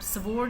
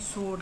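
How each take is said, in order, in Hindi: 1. यह शब्द w ध्वनि के साथ बोला जाता है। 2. यह शब्द w ध्वनि के बिना बोला जाता है। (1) "स्वोर्ड नहीं कहते हम" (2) "सोड कहते हैं, डब्ल्यू इसमें साइलेंट है"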